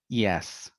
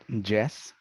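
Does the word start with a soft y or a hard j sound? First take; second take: soft y; hard j. First: The word starts with a soft y sound. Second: The word starts with a hard j sound. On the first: The speaker calls it right. "but yes" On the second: The speaker calls it wrong. "not yes"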